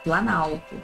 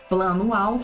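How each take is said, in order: First: The words are fused, dropping the O sound. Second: Both words are said separately, keeping the O sound. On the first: "eu perdi esse O aqui" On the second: "tinha um plano alto"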